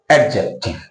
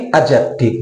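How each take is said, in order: First: Adjective with the d sounded: ad-jective; deliberately wrong adjective with d; wrong pronunciation. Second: Adjective with a silent d, like ajective; careful model adjective, d dropped; correct pronunciation. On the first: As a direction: say adjective slowly, stressing a clear d. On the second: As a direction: say adjective slowly with no d sound. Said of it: "You should speak only". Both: Shown as a demonstration.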